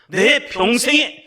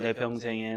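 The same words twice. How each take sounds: First: It is read strongly and clearly, with force. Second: It is read weakly and limply, without force. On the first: The speaker calls it right. "이렇게 읽으시는 거예요" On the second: The speaker calls it wrong. "흐물흐물 읽으시면 안 돼요"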